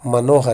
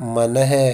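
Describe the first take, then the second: First: The parts are joined into one word. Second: The parts are said separately, split apart. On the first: The speaker calls it right. "संधि कर्म करके ही उच्चारित करना होगा" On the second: The speaker calls it wrong. "इस तरह से नहीं बोल सकते"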